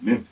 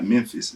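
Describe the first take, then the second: First: The word is said quickly with no N. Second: The word is said slowly with a clear N. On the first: The speaker calls it right. "It's real quick. It don't sound like you got no N" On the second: The speaker calls it wrong. "it's not Memphis"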